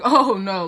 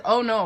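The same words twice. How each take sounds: First: Imitated half-laughing exclamation, louder; Sabrina. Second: Said in the usual way. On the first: Showing how her friend says it, louder mock half-laugh. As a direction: put a hint of a laugh in it, mimicking. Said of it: "she kinda laughs when she does it". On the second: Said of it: "or whatever, right?".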